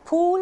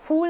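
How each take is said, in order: First: The word begins with an aspirated p sound. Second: The word begins with an f sound. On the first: The speaker calls it right. "फूल होता है, फ में नुक्ता नहीं आता है" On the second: The speaker calls it wrong. "फूल नहीं होता है"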